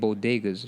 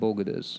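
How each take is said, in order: First: The word is pronounced in its usual form. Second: The word is pronounced with altered middle sounds. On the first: This is the word she meant to say. The speaker calls it right. "instead of saying bodegas" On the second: This is how she actually said it. The speaker calls it wrong. "she said bogodas, and it just sounded really off"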